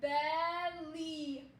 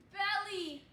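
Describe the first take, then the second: First: Belly stretched out slowly, syllable by syllable; decoding belly slowly as a demo; slow sounding out. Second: Said in the usual way. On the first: Shown as a demonstration. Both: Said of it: "Or in".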